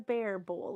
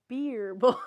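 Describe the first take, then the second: First: The first word has the vowel of 'bear'. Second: The first word has the vowel of 'beer'. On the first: The speaker calls it wrong. "It's not a bear bowl" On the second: The speaker calls it right. "It's a beer bowl"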